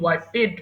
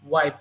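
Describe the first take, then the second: First: The ending is an extra syllable, 'ped'. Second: The ending is a single 'pt' sound. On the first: The speaker calls it wrong. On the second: The speaker calls it right.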